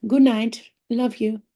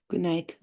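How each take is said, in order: First: Good night called higher and louder, sing-song; bright call. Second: Said in the usual way. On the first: Real, not acted. Saying bye to the viewers, higher louder sing-song good night.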